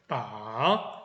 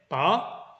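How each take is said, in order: First: The pitch dips down then rises. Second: The pitch rises upward. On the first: "내려갔다가 소리가 올라오는 느낌을 주는 게 삼성" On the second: "뽑아 올리는 건데요"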